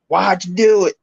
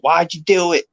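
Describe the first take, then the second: First: It is said in a Southern drawl. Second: It is said in a plain accent.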